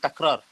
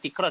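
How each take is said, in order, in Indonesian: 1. Vokal pertama terdengar seperti 'a'. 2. Vokal pertama terdengar seperti 'i'. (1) "dia takrar" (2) "bukan tikrar"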